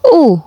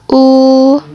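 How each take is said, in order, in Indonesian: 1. Vokal itu memakai nada keempat. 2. Vokal itu memakai nada pertama. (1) "nada keempat" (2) "Nada pertama"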